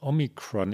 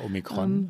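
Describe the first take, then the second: First: It is pronounced with an American accent. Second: It is pronounced with a German accent.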